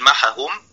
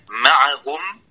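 First: The ayn is merged into the following h. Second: The ayn is pronounced clearly before the h. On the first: "يقول معهم يدغمها في الهاء" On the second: "كما في كلمة معهم"

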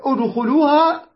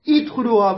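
First: The word begins with an u vowel. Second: The word begins with an i vowel. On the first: The speaker calls it right. "أدو أدو" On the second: The speaker calls it wrong. "ما قلنا إدخلوها"

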